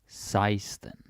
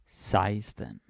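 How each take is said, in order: No difference in how they are said.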